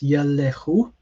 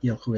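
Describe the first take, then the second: First: A short vowel is heard between the l and h. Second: No vowel is heard between the l and h. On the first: The speaker calls it right. "it's Yelehu" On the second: The speaker calls it wrong. "it's not Yelhu"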